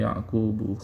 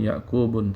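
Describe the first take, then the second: First: The word ends on a plain u vowel. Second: The word ends with an added n sound. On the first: The speaker calls it right. "tapi Yaqubu" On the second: The speaker calls it wrong. "bukan Yakubun"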